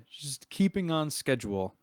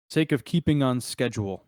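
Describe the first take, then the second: First: Higher-pitched, pointed emphasis on the reminder; very pointed, deliberate nudge. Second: Mildly pointed in-character reminder; a pointed nudge to the group. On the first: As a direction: repeat it pointedly as a hint to move on. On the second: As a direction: make the reminder count, measured and firm. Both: Acted. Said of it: "he'll say that very pointedly".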